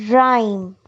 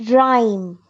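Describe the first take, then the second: No difference in how they are said.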